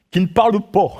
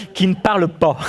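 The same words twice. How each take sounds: First: Light Norman accent on "pas". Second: Said in the usual way. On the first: Shown as a demonstration. Preacher showing his Norman accent to the congregation, lightly Norman. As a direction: say "pas" rounded toward "po", Norman style. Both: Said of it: "c'est mon accent normand".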